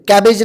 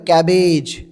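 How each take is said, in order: First: The final syllable is short and clipped. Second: The final syllable is drawn out long. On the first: The speaker calls it wrong. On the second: The speaker calls it right.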